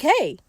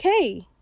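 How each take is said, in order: First: A bright, cheerful Hey; happily. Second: Said in the usual way. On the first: Retold or imitated. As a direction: greet her like he's glad to see her. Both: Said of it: "But he said it, like, real happily".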